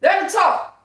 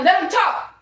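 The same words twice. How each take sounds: First: High, loud spiritual shout; screaming in the spirit. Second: High, loud preacher cry; shouted. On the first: Shouting in the spirit at her haters. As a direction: cry it out with full spirit. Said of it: "That's screaming in the spirit". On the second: Preaching defiance to haters, high loud shout. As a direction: belt it out like a sermon. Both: Real, not acted.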